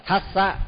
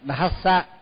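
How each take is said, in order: First: The first consonant is voiceless, without the d sound. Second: The first consonant is a voiced d with breath. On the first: The speaker calls it wrong. "thassa thì cũng thì là mất chữ đờ" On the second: The speaker calls it right. "phải đọc đúng là phải đọc thassa"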